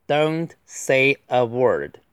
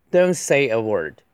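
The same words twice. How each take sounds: First: Very slow, each word apart; deliberate, spaced-out delivery; slow model reading. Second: Said in the usual way. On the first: Shown as a demonstration. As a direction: read it out word by word for learners. Slow model reading, then faster repeat.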